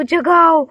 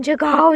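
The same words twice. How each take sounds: First: जगाओ thrown back louder with a falling end; loud witch taunt of जगाओ; mocking loud taunt. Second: Said in the usual way. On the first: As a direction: jeer जगाओ at the child, louder. Witch mocks child's wake call.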